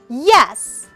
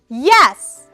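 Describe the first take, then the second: First: The pitch starts high and falls. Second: The same.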